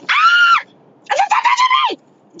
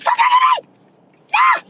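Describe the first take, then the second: First: High shrieking yell; retold scream. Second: High comic shriek; Kevin Hart scream. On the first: Screaming at a man who touched her thigh, high shriek. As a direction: shriek it at him. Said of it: "So I was like". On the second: Retold or imitated. Redoing her bar scream Kevin Hart style, high shriek. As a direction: shriek like a panicked comedian. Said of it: "I hit a Kevin Hart".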